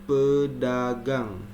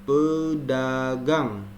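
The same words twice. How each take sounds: No difference in how they are said.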